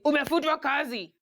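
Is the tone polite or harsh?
harsh. It is said in a blunt, harsh tone.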